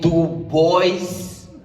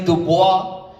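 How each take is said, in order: First: The name sounds like the English words 'do boys'. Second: The name ends in a French 'bwah' sound. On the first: It sounds like a claim about liking boys. The speaker calls it wrong. "mispronounce my name and call me Dubois, because I don't do boys" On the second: This is the correct pronunciation of the name. The speaker calls it right. "Dubois is very French"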